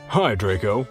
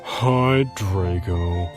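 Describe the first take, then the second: First: It is said in a plain, ordinary voice. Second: It is said in a gloomy, depressed voice.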